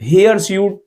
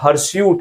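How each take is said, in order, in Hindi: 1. यह दो शब्द hair suit जैसा सुनाई देता है। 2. यह एक शब्द hirsute की तरह बोला जाता है। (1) "हेयर स्यूट ना समझिए इसको" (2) "हर्स्यूट है वर्ड"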